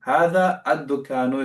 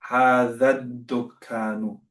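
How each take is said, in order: First: هذا الدكان with هذا kept apart from the article; unjoined pronunciation. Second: هذا الدكان run together as "haadhad-dukaanu"; eloquent joined pronunciation. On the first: Teacher shows students the acceptable but less eloquent reading, unjoined pronunciation. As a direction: say هذا الدكان word by word, "haadhaa ad-dukaanu". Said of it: "try and become a bit more eloquent". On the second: Teacher models more eloquent Arabic for students, joined pronunciation. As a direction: join هذا الدكان smoothly, doubling the d. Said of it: "become a bit more eloquent".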